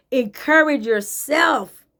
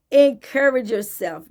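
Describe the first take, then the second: First: "Encourage yourself" drawn out slowly; slow, weighty "Encourage yourself"; slow emphatic. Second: Said in the usual way. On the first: Shown as a demonstration. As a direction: stretch out "Encourage yourself" like a command. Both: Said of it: "coaching repeat".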